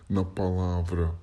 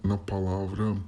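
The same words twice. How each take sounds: Both takes have the same delivery.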